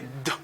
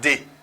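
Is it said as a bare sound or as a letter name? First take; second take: bare sound; letter name. First: It is said as a short bare d sound. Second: It is said as the letter name 'dee'. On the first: The speaker calls it right. "c'est d" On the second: The speaker calls it wrong. "C'est pas d"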